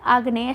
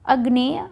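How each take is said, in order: First: आग्नेय as aag-ney; correct form आग्नेय. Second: अग्नेय as ag-ney; the mistaken short opening of अग्नेय; wrong form अग्नेय. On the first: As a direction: say आग्नेय with a long first aa. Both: Shown as a demonstration. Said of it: "अग्नेय नहीं होता है".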